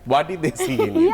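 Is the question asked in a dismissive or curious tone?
curious. It sounds sincere and curious.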